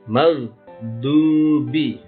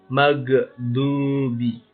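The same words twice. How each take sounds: First: The gh sound is held without a bounce. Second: The gh sound is released with a bounce. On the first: The speaker calls it right. "Padahal bukan dipantulkan" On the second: The speaker calls it wrong. "Salahnya begini. ... Dipantulnya"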